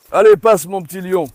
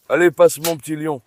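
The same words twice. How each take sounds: First: Louder, higher repeated command; urgent urging. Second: Said in the usual way. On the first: Real, not acted. Owner urges his little lion to move on, urgent urging. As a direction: raise the voice to hurry a dog through.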